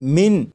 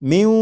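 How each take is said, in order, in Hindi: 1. यह शब्द साफ़ 'न' की आवाज़ पर खत्म होता है। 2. 'न' नासिकृत w-ध्वनि में मिल जाता है। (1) "जैसे लिखा हुआ है मिन मिन" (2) "बल्कि इसे पढ़ेंगे म्यू म्यू म्यू"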